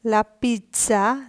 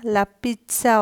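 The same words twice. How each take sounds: First: লা pizza drawn out slowly with a rising tune; slow first take. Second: Said in the usual way. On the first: Shown as a demonstration. Teacher introducing a new word, slow and rising. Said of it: "লা pizza অর্থ".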